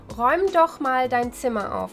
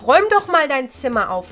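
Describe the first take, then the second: First: The tone is soft, coaxing and submissive. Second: The tone is sharp and irritated. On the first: Please, would you clean your room? "you don't have to sound that submissive" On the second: Patience is running out; do it now. "with a very different tone"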